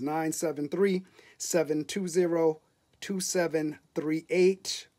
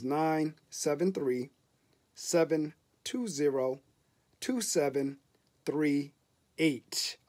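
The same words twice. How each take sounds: First: The number is said at normal speed. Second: The number is said slowly.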